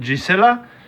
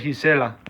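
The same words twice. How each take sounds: First: The first sound is not an h sound. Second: The first sound is an h sound.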